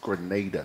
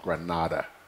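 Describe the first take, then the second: First: The middle vowel sounds like 'ay'. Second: The middle vowel sounds like 'ah'. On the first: The speaker calls it right. "it's Grenada" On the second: The speaker calls it wrong. "not Granada"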